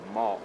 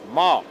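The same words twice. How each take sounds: First: The pitch goes down. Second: The pitch goes up. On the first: "ein Ton, der quasi nach unten geht" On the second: "ein Ton, der nach oben geht"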